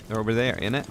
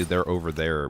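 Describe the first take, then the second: First: Higher-pitched mock British accent. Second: Said in the usual way. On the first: Shown as a demonstration. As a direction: try out an amateur British accent. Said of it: "with a British accent". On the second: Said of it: "I don't even know how to say".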